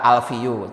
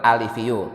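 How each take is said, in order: First: The word has no vowel between l and f. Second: The word has a vowel between l and f. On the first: The speaker calls it wrong. "alifiyu dibaca alfiyu, itu salah" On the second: The speaker calls it right. "Yang benar alifiyu"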